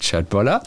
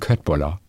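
First: The word is pronounced with Swedish vowel sounds. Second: The word is pronounced with German vowel sounds. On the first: The speaker calls it right. "Aber es heißt Köttbollar" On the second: The speaker calls it wrong. "das Personal mich ... vermeintlich korrigiert, sie meinen Köttbollar"

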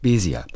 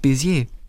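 First: The stress is on the first syllable. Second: The stress is on the last syllable. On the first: This is the family's older German-style form of the name. "mit Betonung auf der ersten Silbe" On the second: This is the French-style form reflecting the name's origin. "französischen Ursprungs"

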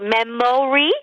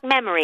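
First: The middle vowel is a full vowel. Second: The middle vowel is a schwa. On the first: The speaker calls it wrong. "Man sagt nämlich nicht Memory" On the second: The speaker calls it right. "Denn man sagt Memory. ... Ist wieder ein Schwa"

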